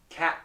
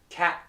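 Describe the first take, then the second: Both takes have the same delivery.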